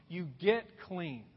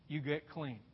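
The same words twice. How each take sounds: First: Slow, deliberate build to the last step; slow emphatic clean. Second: Much softer, dropped low echo. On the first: Preacher listing the steps, slow and deliberate. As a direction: drag it out, land on clean. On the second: Preacher echoing the last step, hushed and low. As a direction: let it sink in, nearly under the breath. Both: Shown as a demonstration.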